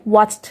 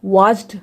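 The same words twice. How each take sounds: First: वॉच्ड said as "wacht"; final D as T. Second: Watched said wrongly as "wajd"; voiced final D. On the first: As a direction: close वॉच्ड on a voiceless t. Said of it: "ट पढ़ेंगे". (वॉच्ड के अंत में ट की आवाज़) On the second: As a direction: let watched end in a buzzed, voiced d. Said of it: "watched नहीं पढ़ेंगे". (watched को वॉज्ड बोलकर) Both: Shown as a demonstration.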